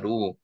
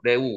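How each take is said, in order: First: The first vowel is the unrounded 'eu' sound. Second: The first vowel is an open 'e' sound. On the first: "우리말로 르우로 발음이 되지만" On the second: "실제로 발음이 레우로 발음이 되는 거죠"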